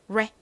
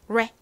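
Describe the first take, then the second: First: The syllable has an English curled r sound. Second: The same.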